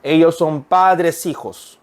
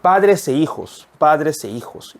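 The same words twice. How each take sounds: First: "padres hijos" run together with no "e"; wrong version. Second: "padres e hijos" with "e" said clearly; correct version. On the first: Teacher showing the linked wrong version. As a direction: read it the wrong way, slowly. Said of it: "이가 들어갔다고 생각해 볼까요". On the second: Teacher showing the correct reading to students. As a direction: say "e" distinctly between the words. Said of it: "이렇게 읽어야 된다". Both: Shown as a demonstration.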